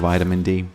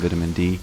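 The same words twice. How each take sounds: First: Vitamin is said the American way. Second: Vitamin is said the British way. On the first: "and uh, American" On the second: "I guess it's English"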